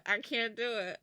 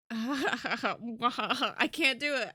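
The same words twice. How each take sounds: First: Said in the usual way. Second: Loud, slow, laughing through the words; giggling too hard to get it out. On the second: Real, not acted. Laughing at own attempt.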